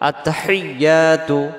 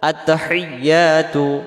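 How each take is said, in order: The two takes are said the same way.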